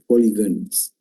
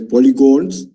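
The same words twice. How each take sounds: First: The last syllable has a reduced vowel, 'guns'. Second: The last syllable has a full 'o' vowel, 'gons'. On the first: The speaker calls it right. "the correct pronunciation is polygons" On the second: The speaker calls it wrong. "Some people call it as polygons"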